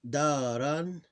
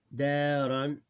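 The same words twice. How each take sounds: The two takes are said the same way.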